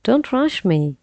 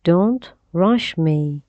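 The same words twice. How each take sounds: First: The phrase is said at a faster pace. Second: The phrase is said at a slower pace.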